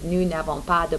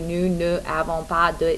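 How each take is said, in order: First: Ne is shortened and joined to avons. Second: Ne is said as its own separate syllable. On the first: The speaker calls it right. "The actual correct way to say we don't have any posters" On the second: The speaker calls it wrong. "it's close, but it's not exactly right"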